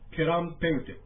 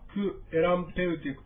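First: The first two words merge into one syllable. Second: The first two words are kept apart, unmerged.

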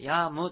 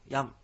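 First: The final mu is pronounced as a full syllable. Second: The word ends by just closing the lips. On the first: The speaker calls it wrong. "ヤムとこうはっきり言うんでなく" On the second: The speaker calls it right. "口を閉じるだけの発音なので"

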